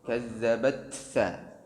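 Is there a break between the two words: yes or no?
no. The two words run together without a break. The speaker calls it right. "tidak boleh diputus"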